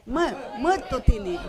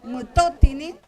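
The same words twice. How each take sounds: First: "mutotini" with the force on "Mu-", falling at the end; stress on first syllable. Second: Said in the usual way. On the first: Shown as a demonstration. ("mutotini" con la fuerza en la primera sílaba, "Mu-") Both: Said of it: "dónde va la fuerza de pronunciación".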